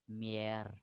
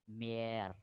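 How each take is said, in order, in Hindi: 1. स्वर लंबा है। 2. स्वर लंबा है।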